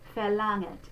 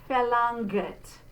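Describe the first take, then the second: First: The ng ends softly with no hard g. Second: A hard g sound follows the n. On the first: The speaker calls it right. "we're just going to say mm, we're not going to go g" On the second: The speaker calls it wrong. "It's not verlangt"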